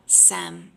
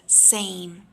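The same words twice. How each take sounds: First: "sem" with a short flat e, no glide; wrong flat vowel. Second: "same" with a full A glide before the m; correct A diphthong. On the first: Teacher showing students the wrong vowel in same. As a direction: say "sem" as the mistake students make. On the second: Teacher contrasting the correct vowel after the mistake. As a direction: say "same" the right way. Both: Shown as a demonstration. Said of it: "sem instead of same".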